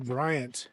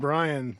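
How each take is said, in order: First: The name ends with a t sound. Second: The name ends without a t sound. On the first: The speaker calls it wrong. "I always want to say Bryant" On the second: The speaker calls it right. "I said it right this time"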